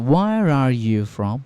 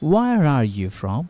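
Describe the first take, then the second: No difference in how they are said.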